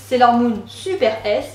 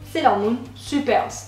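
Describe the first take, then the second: First: It is said French-style, the final S detached. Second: It is said English-style, the final S joined. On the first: "En français, on prononce Sailor Moon Super S en détachant le dernier S" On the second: "se prononce à l'anglaise"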